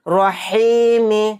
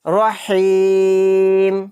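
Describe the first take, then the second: First: The word ends with a short vowel after m. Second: The word ends on the m with no vowel. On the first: "मीम ज़ेर मी" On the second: "मीम को साकिन बना देंगे हालत वक्फ में"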